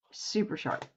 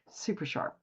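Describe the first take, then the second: First: Said in the usual way. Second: Breathy whisper. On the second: Acted. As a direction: whisper it softly. Repeating a phrase for emphasis.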